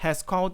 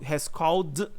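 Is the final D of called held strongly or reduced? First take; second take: reduced; held strongly. First: The D is quick and light, almost a T. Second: The D is held with a strong stop. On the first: The speaker calls it right. "por conta dessa rapidez eu acabo lendo como um T" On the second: The speaker calls it wrong. "não dou essa pausa forte no D"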